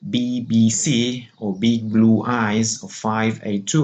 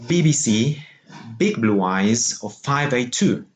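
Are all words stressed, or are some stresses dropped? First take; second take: all stressed; some dropped. First: Every word carries a stress. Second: Some stresses are dropped for a regular rhythm.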